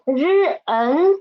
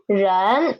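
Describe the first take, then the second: First: 日恩 split into initial r and final en; sounded out. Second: 人 as one syllable in rising second tone; blended syllable. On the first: Teacher breaks a new word down, 日恩 sounded out in parts. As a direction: sound out 日, then 恩, as separate parts. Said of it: "The initial 日, the final N". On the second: Teacher puts the new word together, 人 blended with second tone. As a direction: join r and en into a single rising 人. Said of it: "second tone". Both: Shown as a demonstration.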